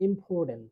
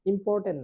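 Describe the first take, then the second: First: ইম্পর্টেন্ট with no r; silent R. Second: ইম্পর্টেন্ট with the r sounded; R pronounced. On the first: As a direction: say ইম্পর্টেন্ট as "impotent", vowel straight into t. (র বাদ দিয়ে ইম্পর্টেন্ট) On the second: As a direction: say ইম্পর্টেন্ট with r before the t. (র উচ্চারণ করে ইম্পর্টেন্ট) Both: Shown as a demonstration. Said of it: "আর এর উচ্চারণ হচ্ছে না".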